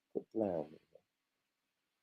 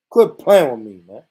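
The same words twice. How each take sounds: First: Softer mumble, lower, almost to himself; muttered under breath. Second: Louder, punched out to chat; loud repeat. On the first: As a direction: mutter it low before repeating. Muttered take before loud repeat. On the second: Streamer repeats it louder to chat after muttering. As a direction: call it out this time. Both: Real, not acted.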